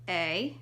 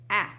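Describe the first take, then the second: First: The vowel is said with its long sound. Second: The vowel is said with its short sound. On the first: "Say their long sounds" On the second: "say their short sounds"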